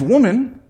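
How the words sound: The word sounds gentle and kind. He is addressing her with respect. The speaker calls it right. "What he was saying is"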